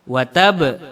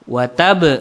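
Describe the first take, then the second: Both takes have the same delivery.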